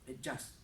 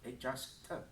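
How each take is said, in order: First: The final T is short and soft. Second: The final T is stretched and elongated. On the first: The speaker calls it right. "soft T sound" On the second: The speaker calls it wrong. "do not stretch the T"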